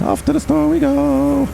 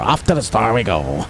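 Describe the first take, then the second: First: It is said in a high, squeaky put-on voice. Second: It is said in a normal speaking voice.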